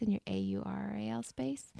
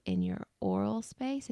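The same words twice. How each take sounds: First: A U R A L said letter by letter; name each letter of A U R A L, then say "space"; spelled out. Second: Said in the usual way. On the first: Shown as a demonstration. Spells the homophone to clarify.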